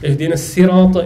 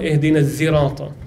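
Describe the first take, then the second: First: The word starts with a plain s sound. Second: The word starts with a z sound. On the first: "can be read with the sin" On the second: "and the zay"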